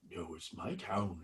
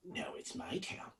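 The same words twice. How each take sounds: First: Lower, soft, eerie voice on my town. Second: High, breathless whisper of my town; eerie whisper. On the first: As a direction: drop it low and haunting. Possessed voice answers low. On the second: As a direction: hiss it like a ghost's secret. Possessed voice whispers. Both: Acted.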